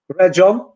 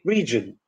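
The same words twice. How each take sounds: First: The first vowel is a Polish e. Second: The first vowel is an English ee. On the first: The speaker calls it wrong. "replace e with the Polish e" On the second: The speaker calls it right. "should be"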